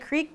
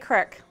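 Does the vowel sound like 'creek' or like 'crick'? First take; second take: creek; crick. First: The vowel is a long ee sound. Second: The vowel is a short i sound. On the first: This is how other people say it. "People say creek" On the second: This is how the speaker says it. "but I say crick"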